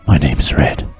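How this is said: It is said in a put-on mystical voice.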